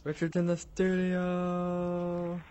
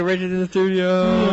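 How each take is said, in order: First: Slow, high stretched announcer voice; drawn-out announcer. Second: Higher, louder host hype; excited announcement. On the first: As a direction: stretch every word like a game show host. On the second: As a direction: announce the guest like a showman. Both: Acted.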